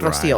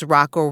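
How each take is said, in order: First: The name is said like 'Rocio'. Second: The name is said like 'Rocco'. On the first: This is how the name is really said. The speaker calls it right. "everything but Rocio" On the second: Other people mispronounced the name. The speaker calls it wrong. "it was Rocco, Rocio, Rocco, everything but Rocio"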